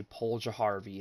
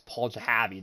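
First: "Paul Jaharvey" with an R sound, ja-HAR-vey; "Paul Jaharvey", pronounced properly with the R; correct pronunciation. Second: "Paul Jahavi" said ja-HAV-ee with no R sound; "Paul Jahavi", his personal way, no R; his own pronunciation. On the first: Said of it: "I know how to say". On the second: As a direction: stubbornly say "Paul Jahavi", dropping the R. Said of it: "That's how I say it". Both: Shown as a demonstration.

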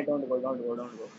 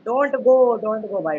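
First: "don't go" dropped low and much softer, trailing off; lower, muted "don't go"; fading plea. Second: Raised plea "Don't go"; pleading don't go. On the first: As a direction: mumble "don't go" to yourself, giving up. Begging fades to mumble. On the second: Begging teammate not to go. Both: Real, not acted.

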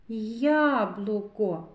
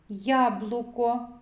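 First: "Яблуко" slowly drawn out; sounding out. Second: Said in the usual way. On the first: Shown as a demonstration. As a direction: stretch "Яблуко" out so each sound is heard. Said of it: "зробимо звуковий аналіз слова яблуко". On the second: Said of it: "зробимо звуковий аналіз слова".

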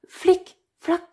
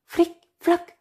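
No difference in how they are said.

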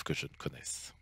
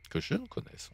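First: Said in the usual way. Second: Que je ne connaisse, lifting ne high and soft as a correction; soft, high emphasis on ne; stress on ne. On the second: Shown as a demonstration. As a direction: pitch the word ne up to correct the grammar. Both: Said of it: "on devrait dire".

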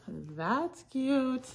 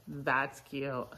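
First: CUTE sliding up high; high-pitched gushing. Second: Said in the usual way. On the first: Real, not acted. Reseller admiring little pockets on shorts, high-pitched gushing. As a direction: coo "That's cute" in a much higher voice.

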